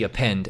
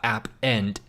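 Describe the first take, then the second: First: It begins with a weak 'uh' sound. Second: It is said as 'app' plus 'end'. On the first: The speaker calls it right. "it's actually append" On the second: The speaker calls it wrong. "it's not app end"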